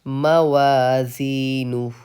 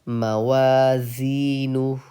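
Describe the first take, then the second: No difference in how they are said.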